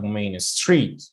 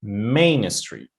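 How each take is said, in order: First: "Main Street" with the weight wrongly on STREET; stress on second word. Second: "Main Street" with MAIN drawn out and punched; stress on first word. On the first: Teacher showing students what not to say, "Street" stressed in "Main Street". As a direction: slowly lean on "Street" in "Main Street". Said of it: "not Main Street". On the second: Teacher correcting the stress for students, "Main" stressed in "Main Street". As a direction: exaggerate "Main", let "Street" drop away. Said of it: "stress the first word". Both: Shown as a demonstration.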